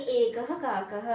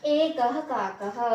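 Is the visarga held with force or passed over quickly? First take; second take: passed quickly; held forcefully. First: The visarga is light and passed over quickly. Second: The visarga sound is held with full force. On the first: The speaker calls it right. "विसर्ग पर हम इस पूरा जोर नहीं देंगे। इसे इतना जल्दी बोलेंगे" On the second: The speaker calls it wrong. "एकः काकः नहीं बोलेंगे"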